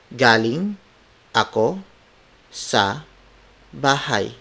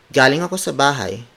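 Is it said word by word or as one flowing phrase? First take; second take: word by word; flowing phrase. First: Each word is said separately, without natural melody. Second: It flows as one phrase with natural intonation.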